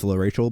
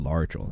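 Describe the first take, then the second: First: The name sounds like 'La Rachel'. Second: The name sounds like 'La Archel'. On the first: The speaker calls it right. "if you read her name, it actually is La Rachel" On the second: The speaker calls it wrong. "I'm fucking stupid, so I said La Archel"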